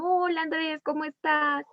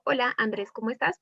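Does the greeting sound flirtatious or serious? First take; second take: flirtatious; serious. First: The greeting sounds flirtatious and sweet. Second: The greeting sounds serious and matter-of-fact. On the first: The speaker finds him attractive or wants a favor. "uno suena más coqueto" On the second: It is a more serious or passing exchange. "algo más serio"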